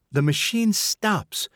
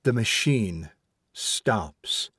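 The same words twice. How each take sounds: First: Higher, slow, mocking echo; venomous. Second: Solemn. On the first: Mother recalls her son's remark, venomously. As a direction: spit the son's words back with spite. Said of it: "the venomous sort of remark". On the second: Son tells his mother from the dark, solemnly. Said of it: "speaking out of the darkness with solemnity". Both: A narrator's reading.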